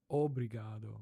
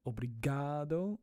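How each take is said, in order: First: "obrigado" with the opening O punched; obrigado, emphasis moved to the front; stress on first O. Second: "obrigado" with the middle GA stretched and punched; obrigado, emphasis on GA; stress on GA. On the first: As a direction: lean on the first syllable, O-bri-ga-do. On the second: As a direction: lean on the third syllable, o-bri-GA-do. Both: Shown as a demonstration. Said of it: "where to put the emphasis on the word".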